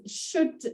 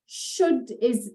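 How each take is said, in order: First: Should breathed out softly as a whisper; whispered repeat. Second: Should said like the English word should, drawn out for the class; should pronunciation. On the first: Teacher repeating should under her breath for learners. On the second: Teacher showing learners the should form of sut. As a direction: show how Should sounds. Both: Shown as a demonstration. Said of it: "sometimes sit is pronounced should".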